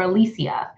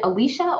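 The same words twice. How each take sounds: First: "Alicia" in four syllables, ending in see-a; "Alicia" said a-LEE-see-a. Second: "Alicia" in three syllables, ending in sha; "Alicia" said a-LEE-sha. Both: Shown as a demonstration. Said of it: "Is it Alicia or Alicia?".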